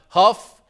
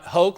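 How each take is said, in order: First: The name ends with an f sound. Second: The name ends with a k sound. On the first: "It's not Huff" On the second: "It's not Hoke"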